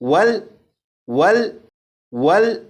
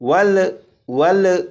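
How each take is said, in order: First: The final L is held steady without bounce. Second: The final L ends with an echoing bounce. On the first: The speaker calls it right. "बल्कि" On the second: The speaker calls it wrong. "इस तरह से नहीं पढ़ेंगे"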